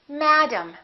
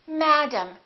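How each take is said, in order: Both takes have the same delivery.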